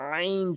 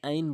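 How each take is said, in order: First: The first sound is pressed from mid-throat. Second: The first sound is plain, not from the throat. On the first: The speaker calls it right. "চাপ দিয়ে হলকের মাঝখান থেকে" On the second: The speaker calls it wrong. "কখনোই আইন বলবেন না"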